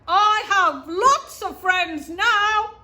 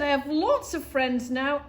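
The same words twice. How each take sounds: First: It is said very loudly. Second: It is said at normal volume.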